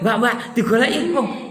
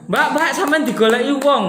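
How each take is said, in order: First: It is said in a frightening, threatening tone. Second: It is said in a cheerful, pleasant tone.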